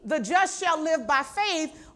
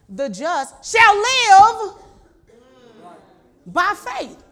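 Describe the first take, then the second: First: The word live is not stressed. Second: The word live is strongly stressed.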